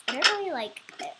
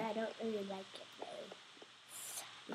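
First: Said in the usual way. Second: Put-on slow, hushed British accent. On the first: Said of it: "I don't know why I'm talking in a British accent". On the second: British accent while complaining about the archery tower. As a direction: slip into a soft British accent. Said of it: "I'm talking in a British accent".

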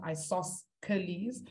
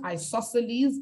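First: Isosceles as eye-soss-kuh-leez, with a hard k; spelling pronunciation. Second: Isosceles as eye-SOSS-uh-leez, no k sound; standard pronunciation. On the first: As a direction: sound the c in isosceles as k. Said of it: "but it's spelled". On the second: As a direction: say isosceles with the c silent. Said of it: "it's pronounced". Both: Shown as a demonstration.

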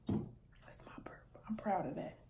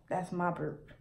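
First: Whispered. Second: Said in the usual way. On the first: Real, not acted. Proud aside.

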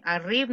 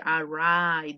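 First: Arrive said Spanish-style as "a-REEV", rolled r; wrong pronunciation. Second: Arrive with a long English i, uh-RYE-v; English pronunciation. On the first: Teacher showing the wrong way to say arrive. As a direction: Arrive with a Spanish i, ah-REE-veh. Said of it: "no, esa palabra no existe". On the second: Teacher modelling the correct English arrive. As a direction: Arrive said the English way, rhymes with drive. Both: Shown as a demonstration.

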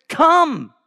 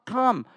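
First: Shouting. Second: Hushed single come; quiet plea after the shout; soft pleading. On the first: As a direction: scream come out like a street hawker. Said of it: "He is shouting it". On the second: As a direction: coax gently, almost under the breath. God's soft pleading invitation. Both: Acted.

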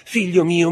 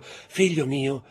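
First: Higher, louder cry of the same words; anguished cry. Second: Slow, pleading call to her son; pleading slowly. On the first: Mother calls her fainted son again, louder and higher. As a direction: break out into a desperate cry. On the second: Mother pleads over her fainted son, slow and anguished. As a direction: draw it out, begging him to wake. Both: A narrator's reading. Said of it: "gridò la madre".

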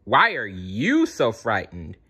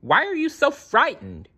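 First: YOU punched, throwing the question back; stress on YOU. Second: High-pitched urgent question in a storybook voice; high, worried yell. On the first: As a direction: lean hard on "you", at an ordinary pitch. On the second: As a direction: call it out, pitched right up. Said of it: "he yelled". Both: A narrator's reading.

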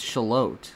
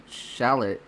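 First: "Shalot" drawn out as shuh-LOTE; corrected town pronunciation. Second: "shallot" said like the onion, SHAL-it; wrong town pronunciation. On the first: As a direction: stress the second syllable of "Shalot", long O. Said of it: "It's, it's Shalot". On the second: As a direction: stress the first syllable of "shallot". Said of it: "You don't say it like shallot". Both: Retold or imitated.

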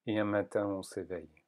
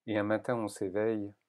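No difference in how they are said.

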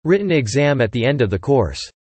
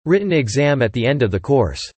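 No difference in how they are said.

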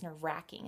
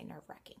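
First: "nerve-wracking" with a short a; RACK pronunciation. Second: Soft "nerve-wrecking" with a short e; WRECK pronunciation. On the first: Vlogger giving her childhood version, "nerve-wracking" with an a. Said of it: "grew up thinking it was nerve-wracking". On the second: Vlogger reporting others' version, soft "nerve-wrecking" with an e. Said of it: "I've heard some people say". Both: Shown as a demonstration.

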